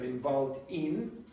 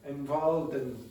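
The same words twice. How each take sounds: First: The word 'in' is said in full. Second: The word 'in' is reduced and linked. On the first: "instead of" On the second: "If you have the weak forms"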